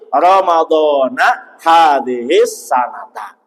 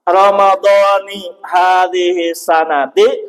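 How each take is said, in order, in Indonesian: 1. Akhiran kata dibaca dengan vokal 'a'. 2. Akhiran kata dibaca dengan vokal 'i'. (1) "akan menjadi fathah dibacanya" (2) "maka jadikanlah lafadz yang tidak menerima tanwin ini dikasrohkan"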